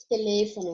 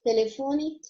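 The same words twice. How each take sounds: First: Teléfono with the stress on LÉ. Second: Telefone with the stress on FO. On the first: Teacher gives the Spanish take, stress on LÉ in teléfono. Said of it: "como é falado em espanhol". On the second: Teacher gives the Portuguese take, stress on FO in telefone. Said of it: "a maneira como eu tô falando". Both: Shown as a demonstration.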